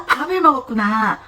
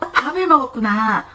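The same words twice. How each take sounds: First: The stress falls on the noun 밥. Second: The stress falls on the noun 밥.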